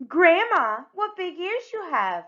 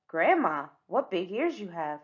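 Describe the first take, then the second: First: Higher and louder, really playing the part; trying the line again with more gusto; livelier delivery. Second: Said in the usual way. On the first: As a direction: sing out the line like a wide-eyed girl. Repeats line with more feeling.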